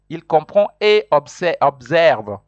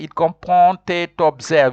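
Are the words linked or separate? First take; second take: separate; linked. First: The words are said separately without linking. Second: The words are linked together in one flow. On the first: The speaker calls it right. "You don't join" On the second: The speaker calls it wrong. "You cannot say"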